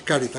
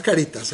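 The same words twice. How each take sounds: First: "caritas" stressed on the first syllable, CA-ri-tas; Latin caritas stress. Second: "caritas" stressed on the middle syllable, ca-RI-tas; mispronounced caritas. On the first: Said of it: "no es caritas". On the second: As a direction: put the wrong stress on RI in "caritas". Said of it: "como yo había estudiado latín". («caritas» mal acentuado, como llana: ca-RI-tas) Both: Shown as a demonstration.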